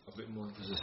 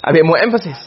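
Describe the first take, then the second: First: Breathy whisper, almost inaudible. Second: Said in the usual way. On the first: Shown as a demonstration. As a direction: whisper it to yourself first. Teacher drops voice before repeating.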